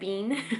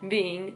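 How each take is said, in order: First: The word is said as one syllable. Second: The word is said as two syllables. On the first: The speaker calls it wrong. "I always said bean" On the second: The speaker calls it right. "I don't know if I say it right now, but I'm trying"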